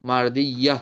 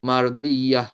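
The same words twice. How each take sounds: No difference in how they are said.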